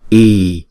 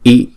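First: The vowel is held for two long beats. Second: The vowel is held for one short beat. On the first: "chúng ta sẽ đọc hai nhịp" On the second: "chúng ta sẽ đọc một nhịp"

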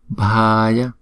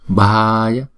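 Both takes have the same delivery.

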